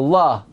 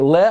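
First: The vowel is an open 'ah' sound. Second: The vowel is a short 'eh' sound. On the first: The speaker calls it wrong. "I think most people say La" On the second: The speaker calls it right. "it seems like Le is more correct"

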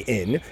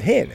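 First: The word starts without an h sound. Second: The word starts with an h sound. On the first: It could be mistaken for a word meaning 'there is not'. "Hillel didn't say in" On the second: It clearly names the liquid measure. "Hillel said hin"

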